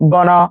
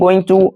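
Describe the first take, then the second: First: The words are blended into one reduced word. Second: Both words are said fully and separately. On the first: "कनेक्टेड स्पीच" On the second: "कनेक्टेड स्पीच"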